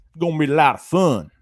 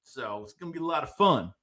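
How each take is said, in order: First: Louder, hammed-up country boy accent; playful put-on country boy voice, a touch louder. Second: Said in the usual way. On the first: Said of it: "act like I'm a country boy". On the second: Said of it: "I should talk like that".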